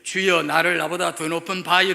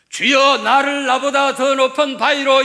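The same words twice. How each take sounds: First: The voice is weak, strained and throaty. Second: The voice is loud, full and strong. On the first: The speaker's spirit is crushed and broken. "throaty voice라고 그래요. 목구멍 소리라고 그래요" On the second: The speaker is healthy in body and spirit. "이러면 이게 건강한 거예요"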